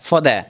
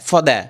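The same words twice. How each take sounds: No difference in how they are said.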